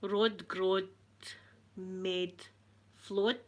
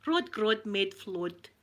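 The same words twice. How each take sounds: First: "Rod Grod Med Flod" broken up with pauses; halting attempt. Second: "Rod Grod Med Flod" slowly in one run; joined-up attempt. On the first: First try at unfamiliar phrase. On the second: Second try, run together. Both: Shown as a demonstration.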